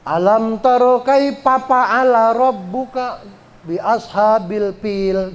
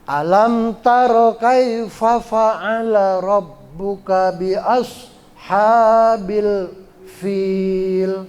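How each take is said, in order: First: The first sound of fa'ala is a p. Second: The first sound of fa'ala is an f. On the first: The speaker calls it wrong. "Jangan begitu" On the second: The speaker calls it right. "Fa itu mengucapkannya seperti kita mengucapkan huruf F"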